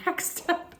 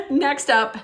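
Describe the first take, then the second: First: Breathy laugh through the words; giggling, can't get it out. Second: Said in the usual way. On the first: Real, not acted. Vlogger laughing while announcing the next award.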